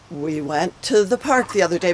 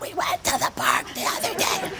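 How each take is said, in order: First: It is said in a clear, normal voice. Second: It is said in a hoarse, strained voice.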